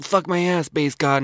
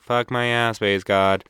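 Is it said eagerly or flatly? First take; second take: eagerly; flatly. First: It is said eagerly, with enthusiasm. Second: It is said flatly, without enthusiasm.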